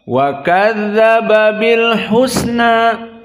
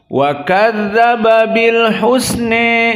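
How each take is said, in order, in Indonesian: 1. Vokal akhir adalah a terbuka penuh. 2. Vokal akhir sangat condong ke e. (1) "membaca bil fathah pada al-husna" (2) "membaca dengan al-imalah al-kubra"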